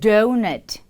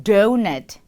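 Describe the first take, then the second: First: It is said with an English accent. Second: The same.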